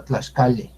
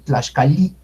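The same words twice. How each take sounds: First: Relax the last vowel of Tlaxcale from ee toward eh; final I toward E. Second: Tlaxcali with a full Spanish I at the end; strong final I. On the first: Teacher correcting the vowel for learners, final E sound. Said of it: "sino Tlaxcale". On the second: Teacher showing the too-strong vowel, full final I. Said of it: "no es tan fuerte la pronunciación de I". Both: Shown as a demonstration.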